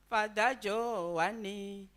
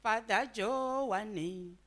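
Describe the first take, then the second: No difference in how they are said.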